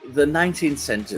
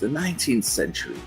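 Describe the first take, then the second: First: It is said in a natural speaking voice. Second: It is said in a put-on character voice.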